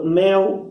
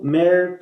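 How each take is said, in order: First: Said in the usual way. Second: "mer" ending in a caipira R, not an L; caipira pronunciation. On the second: Shown as a demonstration. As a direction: close "mer" on an R sound. ("mer" terminando em R caipira) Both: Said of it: "podem dizer purga".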